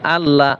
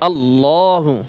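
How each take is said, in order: First: The double L is pronounced thin and light. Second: The double L is pronounced thick and heavy. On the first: The speaker calls it wrong. "আর আপনি যদি ভুল করেন" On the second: The speaker calls it right. "মোটা হইতো"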